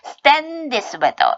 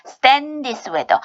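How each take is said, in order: First: "stand" with a hard unaspirated T after the S; tense the T in "stand", linking into "this weather"; tensed T after S. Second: "Stand this" linked as "stan-dhis", no separate D; dropped D. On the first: Teacher showing the doubled-consonant change, tensed T pronunciation. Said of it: "쌍자음으로 바꿔주세요". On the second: Teacher showing D merging into th, dropped-D pronunciation. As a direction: skip the D of "Stand" before "this weather". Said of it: "그래서 앞에 D 하지 마시고요". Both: Shown as a demonstration.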